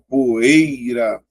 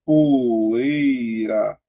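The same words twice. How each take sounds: First: "poeira" drawn out very slowly, leaning on the E; stretched for stress. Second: "Poeira" split slowly into po-ei-ra; syllables separated. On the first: Teacher drawing out "poeira" to show the strong E. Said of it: "o E é mais forte". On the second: Teacher splitting "Poeira" into syllables for students. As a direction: say "Poeira" syllable by syllable, slow and clear. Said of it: "vou separar". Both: Shown as a demonstration.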